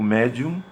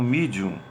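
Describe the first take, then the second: First: It is pronounced with Latin vowels, like 'meh-dee-um'. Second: It is pronounced with English vowels, like 'mee-dee-um'. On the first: "a pronunciar o medium" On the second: "como medium"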